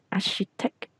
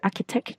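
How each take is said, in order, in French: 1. Le ch se prononce avec un son sh. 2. Le ch se prononce avec un son k. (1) "mình sẽ đọc cái chữ sh nặng hơn" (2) "mình sẽ không đọc là architect"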